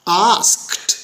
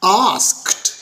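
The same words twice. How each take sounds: Both takes have the same delivery.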